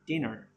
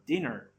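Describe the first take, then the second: First: The final R sound is clearly pronounced. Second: The final R sound is clearly pronounced.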